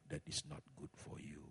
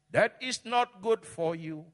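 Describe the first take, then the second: First: Said in the usual way. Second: Much higher and louder, slow; slow shouted warning. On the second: Real, not acted. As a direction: stretch and shout every word. Pastor warns forcefully. (peringatan keras dan pelan)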